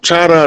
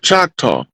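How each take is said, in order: First: The name ends with an open 'ah' sound. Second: The name ends with a rounded 'aw' sound. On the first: This is the original pronunciation. The speaker calls it right. "the French pronounce it Chata like like it's supposed to be pronounced" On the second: This is the English pronunciation. The speaker calls it wrong. "Choctaw is a mispronunciation. It's an English pronunciation of Chata"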